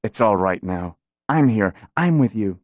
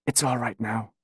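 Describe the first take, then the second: First: Soothing. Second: Gently hushed, much softer; softly soothing a frightened mother. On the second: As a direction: whisper it to calm her. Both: A narrator's reading. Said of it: "her voice was soothing when she spoke".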